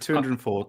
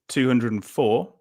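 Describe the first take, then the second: First: It is said at normal quiz speed. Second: It is said slowly and deliberately.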